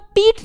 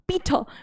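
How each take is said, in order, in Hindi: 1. इस नाम के अंत में कोई अंतिम r ध्वनि नहीं है। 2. इस नाम का अंत गले वाली r ध्वनि से होता है। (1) "पीटर को पीट नहीं बोल सकते" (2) "हम लोग फ्रेंच में आर को ख ख करके बोलते"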